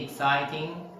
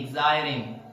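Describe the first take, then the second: First: The middle consonant is a clear T sound. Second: The middle consonant is a soft D sound. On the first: "They didn't say exciting" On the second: "they say exciting"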